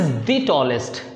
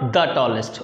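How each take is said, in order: First: The word 'the' is said with a long 'ee'. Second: The word 'the' is said with a short 'uh'. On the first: The speaker calls it right. "दी बोलते हैं। कैसे बोलेंगे" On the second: The speaker calls it wrong. "Not"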